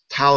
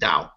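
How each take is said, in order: First: The word starts with a T sound. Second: The word starts with a D sound.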